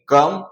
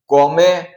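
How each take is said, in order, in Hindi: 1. स्वर 'uh' जैसा सुनाई देता है, अंतिम e मौन है। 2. स्वर 'oh' जैसा सुनाई देता है, अंतिम e उच्चारित होता है। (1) "ओ को हम अ भी पढ़ते हैं और ई जो है वो साइलेंट रहेगा" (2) "ऐसा नहीं पढ़ेंगे"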